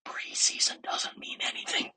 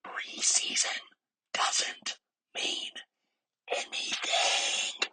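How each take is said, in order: First: Hushed whisper, all in one phrase; whispered reminder. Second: Drawn-out whisper with deliberate breaks; slow emphatic whisper. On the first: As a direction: whisper it as one pointed sentence. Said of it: "I'm gonna whisper it for you again". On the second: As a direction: whisper it again slowly, pausing between chunks. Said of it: "whisper it for you again for the people in the back". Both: Shown as a demonstration.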